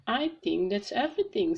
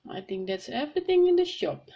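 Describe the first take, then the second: First: Lightly voiced storybook father; a hint of a character, close to narration; Daddy Pig. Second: Higher, louder storybook shopkeeper; Miss Rabbit. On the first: Daddy Pig wraps up the supermarket shopping, lightly voiced. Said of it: "said Daddy Pig". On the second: Shop worker answers Daddy Pig, higher character voice. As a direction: lift the voice for another character. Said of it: "said Miss Rabbit". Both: A narrator's reading.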